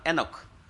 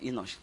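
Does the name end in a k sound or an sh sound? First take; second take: k sound; sh sound. First: Nigerian pronunciation, ending in a k sound. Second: English pronunciation, ending in an sh sound.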